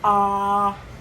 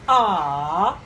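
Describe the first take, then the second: First: The pitch stays high and level. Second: The pitch dips low, then rises. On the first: "it's flat" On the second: "falling and rising"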